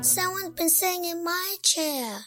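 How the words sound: It is said in a high, squeaky voice.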